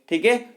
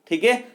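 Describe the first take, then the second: The two takes are said the same way.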